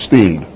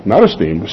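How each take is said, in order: First: "steamed" said STEEMD, no e before it; the right word. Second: "esteemed" with a clear opening e, es-TEEMED; wrong word contrasted. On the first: Preacher tells parents they'd be steamed, crisp STEEMD. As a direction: land on "steamed" alone, one syllable. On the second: Preacher sets the wrong word against steamed, clear es-TEEMED. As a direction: say "esteemed" fully as the word to avoid. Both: Shown as a demonstration. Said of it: "That's one word, right?".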